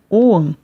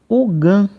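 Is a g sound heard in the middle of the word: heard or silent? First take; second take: silent; heard. First: No g sound is heard in the middle. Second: A g sound is heard in the middle. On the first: This approximates the modern native pronunciation. "A pronúncia correta, aproximada, em irlandês moderno" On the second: This is the common local pronunciation. "Aqui no Brasil, é comum as pessoas pronunciarem"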